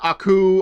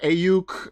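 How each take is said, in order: First: The name begins with an 'ah' sound. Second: The name begins with an 'ay' sound. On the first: "I've heard Aku" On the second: "I've heard Ayuk"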